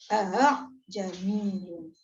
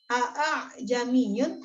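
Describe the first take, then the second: First: The second glottal stop is softened and eased. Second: Both glottal stops are pronounced fully and clearly. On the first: The speaker calls it right. "tetapi a jamiyun" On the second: The speaker calls it wrong. "tidak dibaca a jamiyun"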